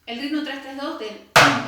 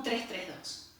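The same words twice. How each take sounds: First: Slightly louder, tres tres dos stated as a beat pattern; three three two rhythm. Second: Each group of the 3-3-2 clave marked by its count; three three two rhythm. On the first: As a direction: lay out the clave groups clearly. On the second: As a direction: count out tres tres dos as the beat groups. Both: Shown as a demonstration. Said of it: "estamos llevando un ritmo".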